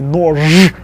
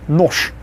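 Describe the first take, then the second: First: The final consonant is voiced. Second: The final consonant is voiceless. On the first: The speaker calls it wrong. "Can you imagine actually trying to say" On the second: The speaker calls it right. "Russians make it easier and say"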